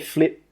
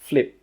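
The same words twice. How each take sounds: First: The final P is released with a puff of air. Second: The final P is held with no air released. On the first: The speaker calls it wrong. "We don't say flip" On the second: The speaker calls it right. "we stop the air from coming out"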